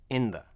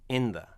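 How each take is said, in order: No difference in how they are said.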